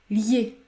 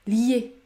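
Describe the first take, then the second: First: The 'i' is a short 'y' glide. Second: The same.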